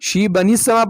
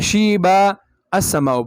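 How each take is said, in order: First: The words run together without a pause. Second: There is a pause before the second word.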